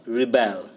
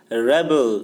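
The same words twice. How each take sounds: First: Rebel as ri-BEL, second syllable stressed; verb pronunciation. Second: Rebel as REB-ul, first syllable stressed; noun pronunciation. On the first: Teacher shows the form not used in the poem, rebel as ri-BEL. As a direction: hit the end of rebel, ri-BEL. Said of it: "not rebel". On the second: Teacher confirms how the poem's noun is said, rebel as REB-ul. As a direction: hit the start of rebel, REB-ul. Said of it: "so we will pronounce it as". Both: Shown as a demonstration.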